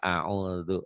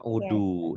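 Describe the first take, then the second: First: The middle consonant is a soft dh sound. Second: The middle consonant is a plain d sound. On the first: The speaker calls it right. "yang benar audu dal" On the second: The speaker calls it wrong. "dalnya jadi dal"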